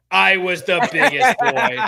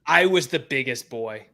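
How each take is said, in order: First: Louder, slow proud boast; slow, puffed-up boast. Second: Said in the usual way. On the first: Shown as a demonstration. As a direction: puff up like a proud kid.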